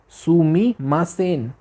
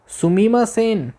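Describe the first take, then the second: First: Said in the usual way. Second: Sumimasen said high, drawn out and falling; polite call. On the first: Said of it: "लिखा हुआ है, देखो वहाँ पे". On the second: Shown as a demonstration. Teacher calls a waiter with a high, slow "सुमीमा सेन". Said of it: "tone सुनो".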